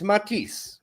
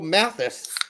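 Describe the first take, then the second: First: The name is said the French way. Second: The name is said the American way.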